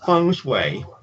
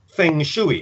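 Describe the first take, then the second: First: It is said with Mandarin sounds. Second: It is read with English letter sounds. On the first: The speaker calls it right. "but it's actually feng shui" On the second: The speaker calls it wrong. "you might think it was supposed to be read as feng shui if you saw it as an English reader"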